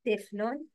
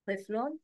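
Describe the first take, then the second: First: طفل with a thin plain t, like tifl; wrong light ta. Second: طفل with a dark, heavy t. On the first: Teacher shows learners the mistake, wrongly light t. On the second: Teacher models the word for learners, heavy ta. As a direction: start طفل on a full emphatic t. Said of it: "It's ta". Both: Shown as a demonstration.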